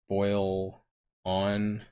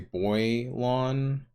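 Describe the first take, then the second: First: The name is split after 'boil'. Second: The name is split after 'boy'. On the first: "you could just separate the syllables here" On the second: "Some people break it up here and say boylon"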